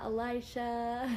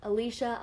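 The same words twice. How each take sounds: First: Elisha with EYE in the middle; alternative pronunciation. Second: Alicia with EE in the middle; first pronunciation. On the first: Host trying viewer's name another way, alternative pronunciation. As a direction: say Elisha slowly as "a-LIE-sha". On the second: Host reading viewer's name, first pronunciation. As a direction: say Alicia as "a-LEE-sha", louder. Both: Shown as a demonstration. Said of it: "so many ways to pr".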